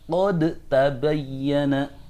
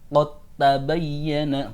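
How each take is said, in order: First: The d is pronounced clearly before the t. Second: The d blends fully into the following t. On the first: The speaker calls it wrong. "bukan ... Tidak boleh dibaca dal" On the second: The speaker calls it right. "harus dalnya diidghamkan"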